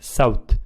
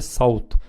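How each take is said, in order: First: The s sound is soft and plain. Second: The s sound is heavy and emphatic. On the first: The speaker calls it wrong. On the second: The speaker calls it right.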